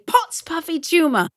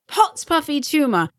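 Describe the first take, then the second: First: It is said in a British accent. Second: The same.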